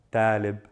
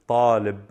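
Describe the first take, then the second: First: طالب said with a light plain T as the wrong form; wrong soft T. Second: طالب with a heavy emphatic ṭ and dark a; heavy ṭ talib. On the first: Teacher showing the wrong soft T in طالب. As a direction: say طالب with a soft T to show the mistake. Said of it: "I'm not saying". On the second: Teacher modelling the heavy ṭ in طالب. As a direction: say طالب with a thick ṭ. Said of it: "Exaggerate the ta". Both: Shown as a demonstration.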